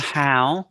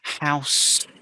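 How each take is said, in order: First: The word ends without the final s sound. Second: The word ends with a clear final s sound. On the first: The speaker calls it wrong. "your how is not a how" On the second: The speaker calls it right. "it's a house. So don't forget those final s's"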